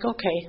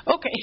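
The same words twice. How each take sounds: First: Said in the usual way. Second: A lifted, resigned okay; higher okay after a laugh. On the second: Retold or imitated. Daughter giving in to her mother, lifted and resigned.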